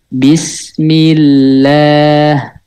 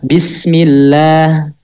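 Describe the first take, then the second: First: The word is said at a slow pace. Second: The word is said at a medium pace. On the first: "Itu lambat cara bacanya" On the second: "biasa, normal gitu. Nggak lambat, nggak cepet"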